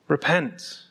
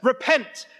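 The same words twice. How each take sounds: First: It is said in a gentle, inviting tone. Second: It is said in a harsh, threatening tone.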